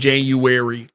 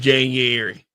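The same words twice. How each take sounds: First: A w sound comes before the a. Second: No w sound comes before the a. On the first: The speaker calls it wrong. "People be saying January like there's a W before the A" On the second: The speaker calls it right. "It's January"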